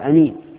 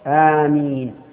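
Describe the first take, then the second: First: The first vowel is short. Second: The first vowel is drawn out long. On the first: The speaker calls it wrong. "ويجوز قص الهمزة فيقال أمين" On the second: The speaker calls it right. "والمد هو الصواب آمين"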